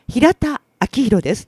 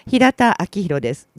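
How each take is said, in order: First: Breath is pushed out on the first syllable. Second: It is said flat, with no breath push. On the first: The speaker calls it right. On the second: The speaker calls it wrong.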